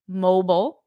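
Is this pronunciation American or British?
American. It is said in an American accent. "in American English, we say mobile"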